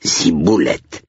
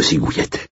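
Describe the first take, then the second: First: "Ciboulette" said slowly, with clear b and l; corrected pronunciation. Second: "cigouillette", with g and y for b and l; mispronounced ciboulette. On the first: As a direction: correct the word carefully: "Ciboulette". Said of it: "désolé pour votre cigouillette". (« Ciboulette » articulé lentement pour corriger) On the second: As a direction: garble the herb's name as "cigouillette". (« cigouillette », mot écorché) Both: A narrator's reading.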